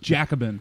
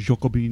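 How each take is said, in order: First: The word is pronounced the plain English way. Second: The word is pronounced the French way.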